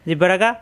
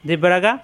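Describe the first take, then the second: No difference in how they are said.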